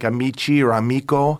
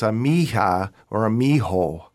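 First: It is said with a hard k sound. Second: It is said with a breathy h sound.

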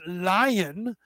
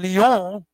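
First: The word is said with an English pronunciation. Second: The word is said with a French pronunciation. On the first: "it morphed into English as Lion" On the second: "which is the way the French say the word"

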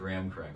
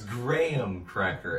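First: Graham is said as one syllable, gram. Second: Graham is said as two syllables, gray-ham. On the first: The speaker calls it wrong. "not graham cracker" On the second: The speaker calls it right. "It's like a gray ham"

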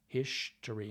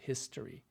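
First: The word is said in an upper-class Boston manner. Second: The word is said in an ordinary plain manner. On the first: It imitates a particular speaker's signature way of talking. "Jack had this way of saying things like history. He would do the history" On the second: It is the usual way most people say it. "instead of history"

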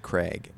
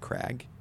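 First: The vowel sounds like the one in 'vague'. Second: The vowel sounds like the one in 'bag'. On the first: This is how the speaker habitually says it. The speaker calls it wrong. "say Craig" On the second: This is how it is supposed to be said. The speaker calls it right. "I'm supposed to say Crag"

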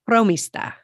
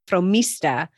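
First: The stress is on the first syllable. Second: The stress is not on the first syllable. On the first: The speaker calls it right. "but it's fromista" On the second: The speaker calls it wrong. "the accent disappears often, and people say fromista"

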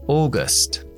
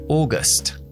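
Both takes have the same delivery.

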